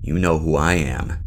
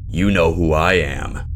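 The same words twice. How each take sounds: First: It is said in a normal everyday voice. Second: It is said in a big, booming voice. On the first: This is what was actually said. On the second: This is how it was heard in a confused state.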